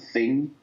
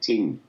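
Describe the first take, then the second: First: The word begins with a th sound. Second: The word begins with a t sound. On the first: This is the adult form of the word. "a lot of the adult words like th sound" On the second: This is the children's form of the word. "they couldn't say th, so they said ting instead"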